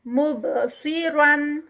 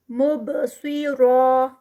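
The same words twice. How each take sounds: First: مبصرن slowly with bounced ب; recited continuous form. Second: مبصرا with heavy را held two counts; recited stop form. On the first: Teacher reciting continuously. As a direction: chant مبصرن. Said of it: "Quran recitation demo". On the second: Teacher showing the stop. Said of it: "ٹو counts پہ اور را heavy ہی رکے گا". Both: Shown as a demonstration.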